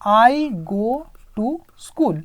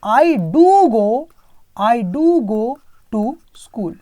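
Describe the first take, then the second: First: Said in the usual way. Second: "I do go to school" with "do" pressed, read very slowly; emphatic do. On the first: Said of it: "तो मैं क्या लिखूंगा?". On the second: Shown as a demonstration. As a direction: insist by leaning on "do". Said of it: "थोड़ा जोर लगाना है".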